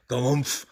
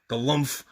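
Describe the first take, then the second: No difference in how they are said.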